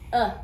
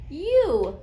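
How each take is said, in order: First: The vowel is a short uh sound. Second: The vowel is a long you sound. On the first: "The short sound goes uh" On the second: "the long sound for letter U is U"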